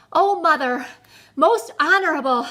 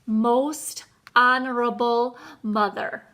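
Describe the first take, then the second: First: Breathless, higher and louder plea; panting. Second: Slow, deliberate address with pauses. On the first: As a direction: gasp it out after a hard run. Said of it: "he panted". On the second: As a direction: take your time over each word. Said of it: "very slowly said". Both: A narrator's reading.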